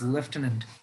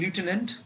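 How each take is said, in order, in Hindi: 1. यह ब्रिटिश लहजे में बोला जाता है। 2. यह अमेरिकी लहजे में बोला जाता है। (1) "in Britain it is" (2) "in America it is"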